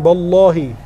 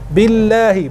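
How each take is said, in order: First: The first vowel is a. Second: The first vowel is i. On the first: The speaker calls it wrong. "bukan ballahi" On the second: The speaker calls it right. "huruf dzalnya diperhatikan"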